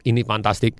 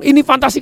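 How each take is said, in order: First: Said in the usual way. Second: Much higher, bright enthusiastic exclamation; excited. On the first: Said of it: "Anda ngomong". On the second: Shown as a demonstration. Customer exclaiming about the product, much higher. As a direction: gush like an eager customer. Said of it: "Kalau dia ngomong".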